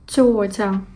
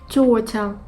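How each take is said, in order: No difference in how they are said.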